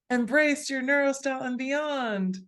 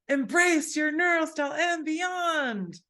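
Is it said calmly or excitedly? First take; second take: calmly; excitedly. First: It is said calmly, without extra excitement. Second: It is said with more excitement.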